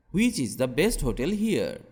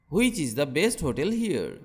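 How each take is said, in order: Both takes have the same delivery.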